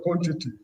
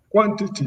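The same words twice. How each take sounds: First: Said in the usual way. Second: "quantity" said the Ghanaian way; Ghanaian pronunciation. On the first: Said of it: "instead of quantity". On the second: Shown as a demonstration. Panelist giving the host an example of accent, Ghanaian pronunciation. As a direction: imitate how Ghanaians say "quantity". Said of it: "because they say station instead of station".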